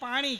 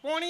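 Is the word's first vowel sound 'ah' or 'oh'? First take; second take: ah; oh. First: The first vowel is an open 'ah' sound. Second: The first vowel is a rounded 'oh' sound. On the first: This is the usual local way of saying it. "મેં કીધું ભાઈ પાણી કે છે" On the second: This is how the visitor from another region says it. "કેલા ભાઈ પોણી હાલ જાય"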